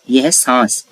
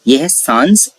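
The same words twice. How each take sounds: First: सांस said again through the nose, no n sound; nasal saans repeated. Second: सांस said through the nose, no separate n; fully nasal saans. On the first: Teacher repeats nasal सांस for students. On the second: Teacher demonstrates nasal सांस to students. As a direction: nasalise सांस so the vowel carries the n. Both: Shown as a demonstration. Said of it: "किसी भी कीमत पे सांस नहीं है".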